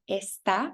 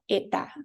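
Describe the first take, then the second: First: The s sound is fully pronounced. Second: The s sound is dropped entirely.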